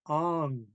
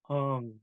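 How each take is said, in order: First: The word is said with a high tone. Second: The word is said with a low tone. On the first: The speaker calls it right. "but it's high tone, so we're saying ong" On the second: The speaker calls it wrong. "If this was low tone, we would be saying ong"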